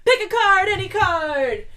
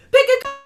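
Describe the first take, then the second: First: Higher, louder showman's call; loud announcer call of the catchphrase; catchphrase shout. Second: Much higher, louder showman's call; loud announcer call of the catchphrase; catchphrase shout. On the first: Announcing the show's game segment. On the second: Announcing the show's game segment again. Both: Real, not acted. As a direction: belt it like a game-show host.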